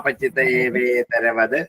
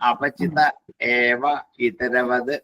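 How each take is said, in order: First: The words are fused together. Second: The words are said separately.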